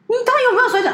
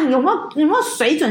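First: Indignant outburst. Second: Said in the usual way. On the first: Real, not acted. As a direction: fling the question out in outrage. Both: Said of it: "angry rant, same question".

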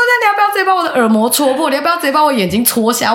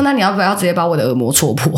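First: High fast furious retort; angry retort. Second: Said in the usual way. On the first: Retold or imitated. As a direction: fire it back furious. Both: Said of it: "我超气的".

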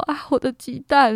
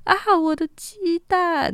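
First: A bit higher and louder mock yelp; retold alarmed cry. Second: High, drawn-out alarmed wail; panicked cry. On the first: After the big fall, retelling her cry about the eggs. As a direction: lightly replay the panic over the eggs. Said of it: "然后我就说". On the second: Retold or imitated. Slipping on the muddy slope, she wails for her egg basket. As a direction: yelp in panic for the eggs while flying. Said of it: "我飞出去的当下就说".

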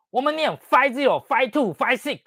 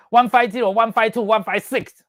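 First: 只念 five zero、five two、five six; 省掉 one，只报两位数; 两位数读法. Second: 报出 one five zero 三位数; 一位一位念出 one five zero、one five two、one five six; 三位数读法. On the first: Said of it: "我们Airbus没有这样念". (照教员要求念两位数) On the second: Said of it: "谁叫你这样子念的？". (照检查表逐位念三位数) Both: Retold or imitated.

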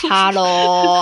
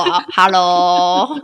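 First: Said in the usual way. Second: Slow stretched Hello with rising end; drawn-out hello. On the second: Shown as a demonstration. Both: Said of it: "calling hello twice".

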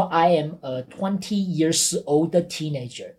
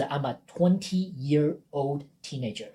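First: Slow demo with "years" ending in s; wrong plural example. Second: Slow demo, "year" without any s; correct compound example. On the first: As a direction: spell out the mistake, S on "years". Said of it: "你不能说". (错误示范，慢念，years 带 S) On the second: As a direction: model "twenty-year-old" slowly, no plural S. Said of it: "你要说的是". (正确示范，慢念，year 不加 S) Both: Shown as a demonstration.

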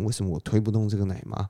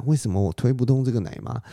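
First: A fast, softer "为什么我推不动这个奶妈" to himself; quieter muttered repeat. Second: A puzzled, raised "为什么我推不动这个奶妈"; surprised question. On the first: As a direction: mutter it again quickly under the breath. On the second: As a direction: ask it in disbelief, pitched up. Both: Acted. 然后他就很惊讶.

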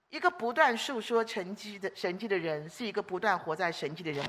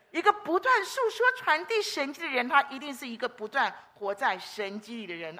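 First: Said in the usual way. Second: 不断 raised and punched; 把“不断”说得更高更重; stress on 不断. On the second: Shown as a demonstration. (重读“不断”) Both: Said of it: "请记得我最后一句话".

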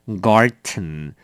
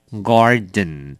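First: "garden" said as garten, with a t; 念成garten; German garten. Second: "garden" said as the English word, voiced d; 英文花园的garden. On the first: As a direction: say "garden" ending in -ten. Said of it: "这边是garden，所以它的拼法有点不一样". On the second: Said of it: "花园的拼法是G A R D E N，那是garden". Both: Shown as a demonstration.

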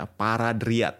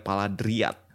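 First: "Paradriat" said slowly with a clear r; careful correction. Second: Paradriat said as "Paladriat", r turned to l; lisping r as l. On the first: Shown as a demonstration. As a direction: correct "Paradriat", r fully sounded. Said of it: "Ya, Paradriat". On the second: Real, not acted. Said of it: "gua agak cadel karena lidah gua lagi sariawan".

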